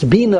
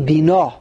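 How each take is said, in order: First: The stress is on the first syllable. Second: The stress is on the second syllable. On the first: It is a command to understand. "it's mila el" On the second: It is a noun meaning understanding. "If it would be a noun"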